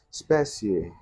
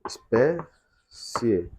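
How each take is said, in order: First: Said in the usual way. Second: "Espécie" broken into syllables with long pauses between them; separado em sílabas. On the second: Shown as a demonstration. ("Espécie" bem devagar, sílaba por sílaba, com pausas) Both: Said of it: "Nós vamos separar em sílabas".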